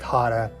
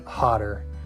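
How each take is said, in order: First: The ending is reduced to an 'uh' sound. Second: The ending is a full 'er' sound. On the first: "When I say it fast, it sounds more like hotter" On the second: "than hotter"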